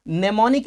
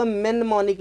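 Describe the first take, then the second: First: Mnemonic with silent M, "ne-MON-ik"; correct reading of mnemonic. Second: Mnemonic misread with an M at the front, "men-monic". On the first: Teacher correcting pupils' reading, mnemonic said as "nemonic". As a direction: start mnemonic on a plain N, "nemonic". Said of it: "इसको पढ़ते हैं". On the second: Teacher showing pupils the likely misreading, mnemonic as "men-monic". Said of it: "पढ़ने में लग रहा होगा". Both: Shown as a demonstration.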